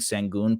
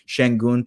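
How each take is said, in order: First: The name is said with English sounds. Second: The name is said with Turkish sounds.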